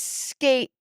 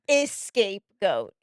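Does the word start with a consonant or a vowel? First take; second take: consonant; vowel. First: The word starts directly with an s sound. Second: The word starts with an extra vowel sound. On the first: The speaker calls it right. "It's scapegoat" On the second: The speaker calls it wrong. "not escapegoat"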